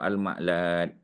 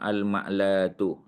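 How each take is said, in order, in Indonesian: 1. Kata ini berakhir dengan bunyi t. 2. Kata ini berakhir dengan vokal u. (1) "kalau kita wakaf" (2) "Kalau kita sebut penuh"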